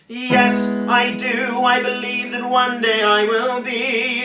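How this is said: The voice is loud, full and chesty.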